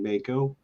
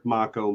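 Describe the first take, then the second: First: Mako said MAY-ko; alternative pronunciation. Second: Mako said MAH-ko; preferred pronunciation. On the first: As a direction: Mako with a long "ay", like the shark. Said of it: "I've heard Mako more than Mako". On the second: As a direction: open "ah" in Mako, Japanese style. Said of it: "So that's how I pronounce it". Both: Shown as a demonstration.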